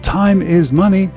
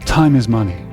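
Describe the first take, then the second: First: Each word is said separately. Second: The sounds link across the words.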